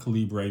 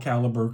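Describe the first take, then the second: First: The middle syllable sounds like 'leeb'. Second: The middle syllable sounds like 'lib'. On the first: "I feel like it's Libre, not Liber" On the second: "I still call Caliber"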